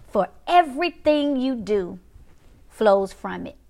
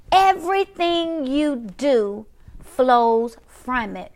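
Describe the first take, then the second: First: "everything you do" read evenly, pause before "flows from it"; measured scripture reading. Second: "Everything you do flows from it" drawn out very slowly; emphatic repetition. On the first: Preacher reads the next part, measured, pausing before "flows from it". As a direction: read it steadily, letting "flows from it" drop after a pause. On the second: Preacher repeats the verse for viewers, slow heavy emphasis on "Everything you do". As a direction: stretch every word, weight on "Everything" and "flows". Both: Real, not acted.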